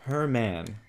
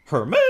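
First: Said in the usual way. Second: "Herman?" louder, shooting up at the end; questioning HERMAN. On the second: Real, not acted. Player echoing the name in disbelief, questioning. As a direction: throw "Herman?" out as a loud rising question.

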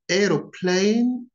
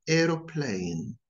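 First: "Aeroplane" said the British way, a clear AIR-oh-plane; British pronunciation. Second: "aeroplane" said the American way, with a rhotic r; American pronunciation. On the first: Teacher showing learners the British accent. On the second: Teacher showing learners the American accent. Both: Shown as a demonstration. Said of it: "notice the differences between them".

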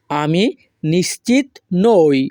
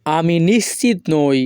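First: Slow, gaps between "আমি", "নিশ্চিত", "নই"; word by word. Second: Said in the usual way. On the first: Shown as a demonstration. Teacher repeating the sentence for learners, word by word. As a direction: say "আমি নিশ্চিত নই" slowly, one word at a time.

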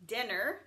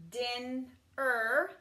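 First: Said in the usual way. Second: Din-er split into two parts; Din-er with a break; sounded out. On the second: Shown as a demonstration. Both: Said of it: "Same with this one".

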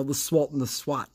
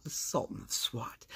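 First: Said in the usual way. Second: Hushed whisper, fading out; whispered echo. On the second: Shown as a demonstration. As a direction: breathe the nickname back softly. Nickname echoed in a whisper.

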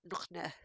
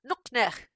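First: Said in the usual way. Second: Loud, higher Klingon greeting; pleased with oneself. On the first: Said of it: "someone else came up to saying". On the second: Acted. Star Trek fans come up to you, pleased with themselves. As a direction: proudly bark out the Klingon phrase. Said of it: "being kind of pleased with themselves".

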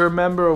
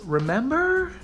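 First: Said in the usual way. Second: High, questioning American-accented "remember"; American "remember" with a rising question tune. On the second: Shown as a demonstration. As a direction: say "remember" like an American, pitched up at the end. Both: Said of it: "What am I, American?".

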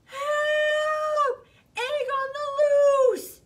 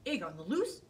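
First: Very high, loud cry for help; panicked shout. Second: Low, curious rising question; perked-up question. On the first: Bear yelling for help as the egg rolls, panicked and loud. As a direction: scream it out like the egg is escaping. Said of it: "shouted Bear". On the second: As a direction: wonder aloud, ears pricked. Hare hears the cry. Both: Acted.

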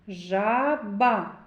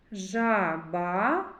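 First: "Жаба" slowly split before the Б, falling tone; middle consonant highlighted. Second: "Жаба" with the last А stretched and rising; final vowel highlighted. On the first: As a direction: separate the Б clearly in "Жаба". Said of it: "Б. Твердий приголосний". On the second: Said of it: "А. Голосний". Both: Shown as a demonstration.

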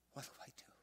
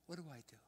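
First: A desperate whisper of what do I do?; whispered plea. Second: Pleading higher. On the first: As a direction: whisper what do I do? as if too scared to say it aloud. Daughter's desperate plea retold. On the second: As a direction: repeat What do I do? higher, the plea breaking through. Daughter's plea repeated, higher. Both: Retold or imitated.

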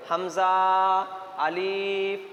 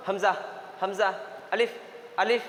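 First: হামজা and আলিফ with long stretched vowels; drawn out, wrongly. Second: হামজা and আলিফ cut short, no stretched vowel; quick, short. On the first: Teacher showing students the common mistake, হামজা, আলিফ drawn out. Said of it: "হামজাকে টান দিয়ে পড়ে দেই". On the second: Teacher models correct reading to students, হামজা, আলিফ said quickly. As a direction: say হামজা and আলিফ quickly without drawing them out. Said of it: "হামজা আলিফকে তাড়াতাড়ি পড়তে হয়". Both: Shown as a demonstration.

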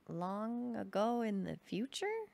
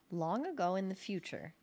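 First: "Long ago in the future" drawn out slowly, rising at the end; "future" swings up into a slow question; puzzled echo question. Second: "Long ago in the future" as a statement, falling at the end; "future" falls, settled and declarative; storyteller's opening. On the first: Listener questions the odd opening. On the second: Opens his story as a statement. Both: Acted.

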